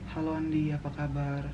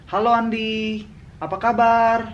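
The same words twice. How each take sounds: First: It is said very quietly. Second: It is said loudly.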